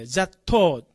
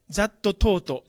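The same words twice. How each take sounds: First: That taught as "zat-tau", ending open; dropped final consonants. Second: That taught said as "za-tto to-to"; katakana final vowels. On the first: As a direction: say "that taught" without the last t. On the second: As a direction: add a full "to" to both words of "that taught". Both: Shown as a demonstration. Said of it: "じゃなくて".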